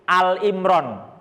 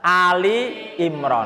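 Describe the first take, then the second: First: The first word is one syllable, with no final vowel. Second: The first word is two syllables, ending in a vowel. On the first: The speaker calls it wrong. "banyak yang salah baca menjadi Al Imran" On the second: The speaker calls it right. "padahal yang benar adalah Ali Imran"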